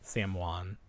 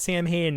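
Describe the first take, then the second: First: The name is not pronounced the way it is spelled. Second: The name is pronounced the way it is spelled. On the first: The speaker calls it right. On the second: The speaker calls it wrong.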